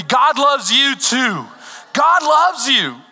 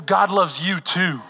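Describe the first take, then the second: First: Slow and louder, leading the crowd; louder, slow call to repeat. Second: Said in the usual way. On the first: Shown as a demonstration. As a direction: say it slowly and firmly so they join in. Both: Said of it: "Say it with me".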